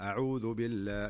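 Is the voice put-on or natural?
natural. It is said in a natural chatting voice.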